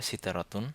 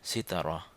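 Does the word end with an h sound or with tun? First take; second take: tun; h sound. First: The word ends with a full tun ending. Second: The word ends with a soft h sound. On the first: "এটার একদম যদি শুদ্ধ উচ্চারণ করি তাহলে হবে সিতারাতুন" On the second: "এই গোলতার উচ্চারণটি হবে অনেকটা হার মতো"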